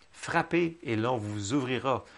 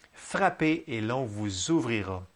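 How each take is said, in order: Both takes have the same delivery.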